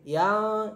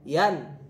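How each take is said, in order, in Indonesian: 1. Bunyi n kabur, tidak jelas. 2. Bunyi n jelas. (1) "jadi tidak boleh yang" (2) "Jadi harus jelas"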